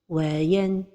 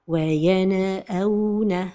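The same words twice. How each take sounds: First: The voice stops briefly right after the n. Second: The n is released with an echoing bounce. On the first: "c'est la pause, c'est-à-dire c'est de faire un arrêt sans prendre de souffle" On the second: "Parmi les erreurs de prononciation, c'est al-qalqala"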